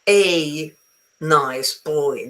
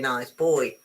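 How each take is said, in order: First: The word 'a' is stressed with a full vowel. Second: The word 'a' is unstressed, reduced to schwa. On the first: The speaker calls it wrong. "you don't go around saying" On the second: The speaker calls it right. "No, you say"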